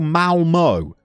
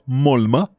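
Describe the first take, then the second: First: The name is said like 'Malmo'. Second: The name is said like 'Mulma'. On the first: "Most people would go Malmo. I don't think that's how you say it" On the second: "I'm going to have a go at this"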